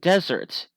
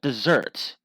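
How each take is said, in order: First: It is stressed the way the noun is. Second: It is stressed the way the verb is. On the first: It names a dry, sandy place. "that's a noun" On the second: It means to abandon someone. "desert is a verb"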